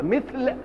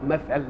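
First: مثل said as "mithl", kasra on the mim, th unvoweled; مثل with kasra and sukun. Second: مثل said as "mathal", fatha on the mim and on the th; مثل with two fathas. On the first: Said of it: "مثل بكسر الميم وسكون الساء". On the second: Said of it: "ومثل بفتح الميم وفتح الثاء". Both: Shown as a demonstration.

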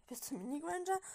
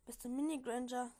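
First: Puzzled question, pitched higher and rising; mild read-aloud bewilderment; slightly confused. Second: Said in the usual way. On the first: A narrator's reading. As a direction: ask it as if a bit thrown. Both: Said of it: "fragte Draco etwas verwirrt".

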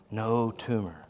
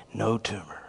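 Both takes have the same delivery.

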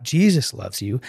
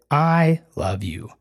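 First: Said in the usual way. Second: "I love you" said slowly, leaning on I; explaining how Jesus would speak, stress on the I. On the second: Shown as a demonstration. Slow "I love you", the I clearly stressed. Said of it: "he would say".

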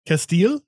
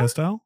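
First: "Castile" as kess-TEEL, questioning; higher, rising "Castile" ending in -teel; alternative pronunciation. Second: "Castile" as kass-TILE, questioning; "Castile" ending in -tile, rising; alternative pronunciation. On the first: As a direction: try "Castile" with an EE, like steel. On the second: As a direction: try "Castile" with a long I, like tile. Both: Shown as a demonstration. Trying ways to pronounce castile.

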